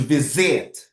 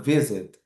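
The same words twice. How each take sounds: First: The stress is on the last syllable. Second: The stress is on the first syllable. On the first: It is used as a verb. "If it's a verb, in the last" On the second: It is used as a noun. "If it's uh, singular, we use the stressed word in the first syllable"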